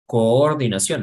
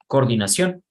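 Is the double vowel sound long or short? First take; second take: long; short. First: The double vowel is held long as two sounds. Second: The double vowel is shortened to one sound. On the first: The speaker calls it right. "decimos coordinación" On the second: The speaker calls it wrong. "no decimos coordinación"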